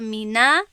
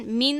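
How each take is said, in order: First: The word ends with an added a vowel. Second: The word ends on the n consonant. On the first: "بالای نون فتحه آوردم" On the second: "در بالای نون سکون بود"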